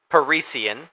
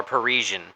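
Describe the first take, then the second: First: "Parisian" with an s sound, puh-REE-see-un; alternate name pronunciation. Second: "Parisian" with a zh sound, puh-REE-zhun; alternate name pronunciation. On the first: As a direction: say "Parisian" in four syllables, ending see-un. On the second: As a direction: say "Parisian" in three syllables, ending zhun. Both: Shown as a demonstration. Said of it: "Not sure how he says it".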